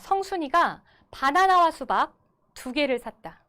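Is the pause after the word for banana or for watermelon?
watermelon. The pause falls after the word for watermelon. Two fruits were bought: one banana and one watermelon. "호흡을 가지고 제가 한번 읽어볼게요"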